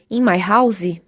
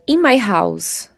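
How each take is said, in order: First: House ends with an added ee vowel. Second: House ends cleanly on the s sound. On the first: The speaker calls it wrong. "eles colocam ah, esse som de I no final" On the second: The speaker calls it right. "Isso, isso mesmo"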